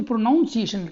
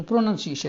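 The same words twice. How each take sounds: First: प्रोनाउंसिएशन with a drawn "noun" in it; common mispronunciation. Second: प्रोनाउंसिएशन with short "nun" second syllable; correct pronunciation. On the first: Retold or imitated. Teacher quoting many children's mistake, प्रोनाउंसिएशन mispronounced with "noun". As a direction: say प्रोनाउंसिएशन wrongly as pro-NOUN-si-ay-shun. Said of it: "बहुत बच्चे ... कर देते हैं". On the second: Shown as a demonstration. Teacher giving pupils the right form, प्रोनाउंसिएशन pronounced with "nun". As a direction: say प्रोनाउंसिएशन as pro-nun-si-ay-shun. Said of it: "यहाँ पर नाउन नहीं है".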